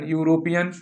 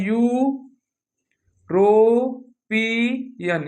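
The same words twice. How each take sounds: First: Said in the usual way. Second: Drawn out slowly. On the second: Shown as a demonstration. Teacher sounding out European very slowly for the class. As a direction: stretch European out syllable by syllable, very slow. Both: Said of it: "क्या लिखा है?".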